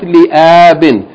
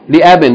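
First: The first vowel is drawn out long. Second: The first vowel is short. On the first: The speaker calls it wrong. "not li-abin" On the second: The speaker calls it right. "There's no long vowel here"

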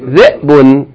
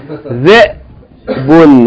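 First: The glottal stop is only a brief catch. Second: The glottal stop is held for a long time. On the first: "We're not going to hold it that long" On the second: "I'm exaggerating"

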